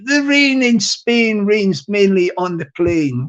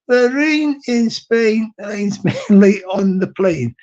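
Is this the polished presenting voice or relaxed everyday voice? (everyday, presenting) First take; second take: presenting; everyday. First: It is said in a polished presenting voice. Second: It is said in a relaxed everyday voice. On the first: "that's my YouTube voice" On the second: "I will try and talk in my normal voice"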